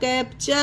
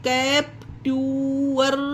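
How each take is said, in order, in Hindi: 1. t का उच्चारण ch जैसा होता है। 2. t का उच्चारण t जैसा होता है। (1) "टी को चा पढ़ा गया है यहाँ पर" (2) "अब इसे कैप ट्यूअर नहीं पढ़ा गया ना"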